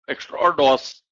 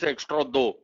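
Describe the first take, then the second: First: The word ends with an audible s sound. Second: The word ends without any s sound. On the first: The speaker calls it wrong. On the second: The speaker calls it right.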